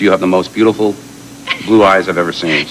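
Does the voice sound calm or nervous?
calm. It is said in a calm, steady voice.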